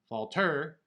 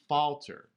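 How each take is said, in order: First: The stress is on the second syllable. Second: The stress is on the first syllable. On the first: The speaker calls it wrong. "We don't pronounce the word falter" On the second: The speaker calls it right. "it's falter"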